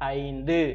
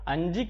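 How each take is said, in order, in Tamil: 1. இந்த சொல் கவனமாகவும் தெளிவாகவும் உச்சரிக்கப்படுகிறது. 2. இந்த சொல் தளர்வாக உச்சரிக்கப்படுகிறது, தெளிவாக இல்லை. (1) "தெளிவா உச்சரிக்கணும்" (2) "5 கிடையாது"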